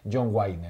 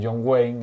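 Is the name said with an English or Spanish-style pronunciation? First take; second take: Spanish-style; English. First: The name is read with Spanish-style sounds. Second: The name is said with English sounds. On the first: This is how some people used to say it years ago. "hai anos había xente que dicía" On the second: This is the name as it should be said. "En vez de"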